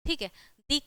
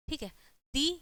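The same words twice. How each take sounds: The two takes are said the same way.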